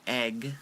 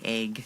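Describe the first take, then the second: First: The word has a general West Coast vowel. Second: The word has a Seattle-accent vowel. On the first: "I don't say egg" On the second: "I say egg"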